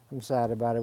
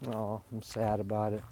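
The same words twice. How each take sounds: First: Said in the usual way. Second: Soft sad sigh. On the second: Real, not acted. Losing the last apple tree, said softly sad. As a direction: let the sadness drop the voice down and quiet.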